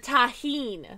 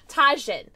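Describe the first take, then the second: First: The word is said with a Spanish pronunciation. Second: The word is said with an anglicized pronunciation. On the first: The speaker calls it right. "They're Tajín" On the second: The speaker calls it wrong. "So they're not Tajin"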